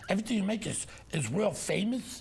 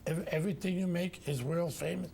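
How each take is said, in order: First: It is said sarcastically, like a wise guy. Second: It is said flatly, like reading aloud. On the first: The speaker calls it right. "You got to be sarcastic" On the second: The speaker calls it wrong. "it sounds like you're reading it"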